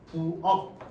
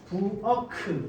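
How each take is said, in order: First: The final k is cut off, unreleased. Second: The final k is released with a vowel. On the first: The speaker calls it right. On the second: The speaker calls it wrong.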